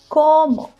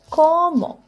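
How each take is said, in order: First: The stress is on the first syllable. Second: The stress is on the first syllable.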